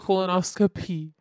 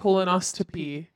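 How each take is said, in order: First: A P sound comes before the final syllable. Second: A T sound comes before the final syllable. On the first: The speaker calls it right. "It's colonoscopy" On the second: The speaker calls it wrong. "You needed to just replace the T with a P. You're saying colonoscopy"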